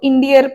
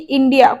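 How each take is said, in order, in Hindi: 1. शब्द के अंत में एक जोड़ी गई r ध्वनि है। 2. शब्द सादे स्वर पर खत्म होता है, r नहीं।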